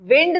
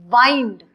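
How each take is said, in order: First: The vowel is short 'ih', as in 'win'. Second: The vowel is long 'eye', as in 'kind'. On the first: It means moving air. The speaker calls it wrong. "wind नहीं" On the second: It means turning a key to tighten a spring. The speaker calls it right. "इसको हम वा वाइंड बोलते थे"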